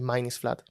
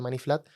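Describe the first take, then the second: First: It is said with a careful English pronunciation. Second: It is said with a Spanish-style pronunciation. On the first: The speaker calls it right. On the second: The speaker calls it wrong.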